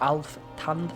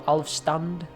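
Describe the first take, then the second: First: No s sound comes before the t. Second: An s sound comes before the t. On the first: The speaker calls it right. "It's Alftand" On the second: The speaker calls it wrong. "I always say it with an S"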